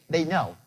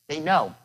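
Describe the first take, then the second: No difference in how they are said.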